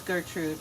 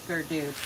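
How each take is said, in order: First: Said in the usual way. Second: Gerdude said with a d in place of the tr; nickname pronunciation. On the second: Shown as a demonstration. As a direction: say Gerdude, ger-DOOD, softly. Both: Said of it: "it was Gertrude, but it's Gerdude".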